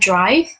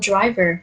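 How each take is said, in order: First: The word ends on a consonant, one syllable. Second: An extra vowel follows the end, two syllables. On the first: The speaker calls it right. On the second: The speaker calls it wrong.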